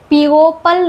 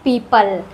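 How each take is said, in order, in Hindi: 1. पहले स्वर के बाद अलग O स्वर आता है। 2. पहले स्वर के बाद कोई अलग O स्वर नहीं आता। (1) "इसको पीओपल नहीं पढ़ते हैं" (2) "इसको पढ़ते हैं पीपल"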